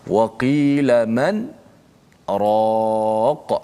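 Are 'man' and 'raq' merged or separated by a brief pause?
paused. A brief stop without breath comes before raq. The speaker calls it right. "Berhenti seketika uh, tanpa menarik nafas"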